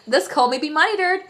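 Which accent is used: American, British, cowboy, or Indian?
cowboy. It is spoken in a cowboy accent. "and the cowboy accent"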